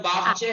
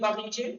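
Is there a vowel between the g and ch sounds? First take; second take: no; yes. First: The g runs straight into ch, no vowel. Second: A long 'ee' vowel separates the g and ch. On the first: This is the Persian way of saying it. The speaker calls it right. "बागचे है फारसी में" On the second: This is the Urdu way of saying it. The speaker calls it wrong. "Urdu बोल रही है बागीचे"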